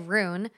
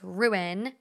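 First: The word is squeezed into a single syllable. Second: The word is said with two separate syllables. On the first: The speaker calls it wrong. "you say ruin wrong. It's I say rune" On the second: The speaker calls it right. "and it's ruin, like ruin"

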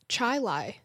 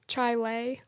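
First: The last syllable sounds like 'lie'. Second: The last syllable sounds like 'lay'. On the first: The speaker calls it right. "she said that she's from Rochester and it is Chi Lai" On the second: The speaker calls it wrong. "What were we saying?"

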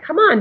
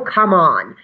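First: It is said in a warm, encouraging tone. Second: It is said in a condescending, scolding tone. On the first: The speaker is cheering herself on. The speaker calls it right. "And so I change it a little, like" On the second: The speaker is belittling herself. The speaker calls it wrong. "It's condescending and mean to say, oh, come on"

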